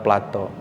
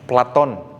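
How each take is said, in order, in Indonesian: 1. Nama ini berakhir dengan vokal, tidak ada n. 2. Nama ini berakhir dengan bunyi n. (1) "bukan Plato"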